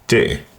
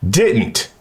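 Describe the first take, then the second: First: The final consonant is softened or dropped. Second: The final consonant is clearly pronounced.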